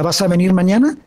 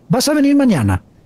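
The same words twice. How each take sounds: First: The voice rises at the end. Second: The voice falls at the end. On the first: This is the standard way to ask a question. "no son hacia arriba, no, no se pregunta" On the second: This is the regional Galician way to ask a question. "preguntan hacia abajo"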